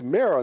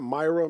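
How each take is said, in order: First: The first syllable sounds like 'ma'. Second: The first syllable sounds like 'my'. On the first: The speaker calls it right. "It's Mara" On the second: The speaker calls it wrong. "not Myra"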